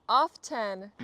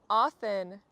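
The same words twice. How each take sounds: Both takes have the same delivery.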